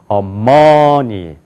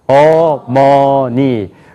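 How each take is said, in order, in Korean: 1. 강세는 두 번째 음절에 있어요. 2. 모든 음절의 높이, 크기, 길이가 같아요. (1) "두 번째 여기가 강조해서" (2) "높이가 같아요. 크기도 같아요. 길이도 같아요"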